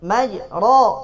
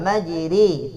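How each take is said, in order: First: The long vowel is a plain open 'a'. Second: The long vowel leans toward an 'e' sound.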